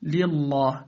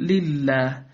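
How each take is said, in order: First: "لله" with the lam thick and dark; wrongly heavy lam. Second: "لله" with a thin, clear l; light lam. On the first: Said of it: "لا تقل". (تفخيم لام "لله") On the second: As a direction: keep both lams of "لله" light. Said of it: "بل". (ترقيق لام "لله") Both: Shown as a demonstration.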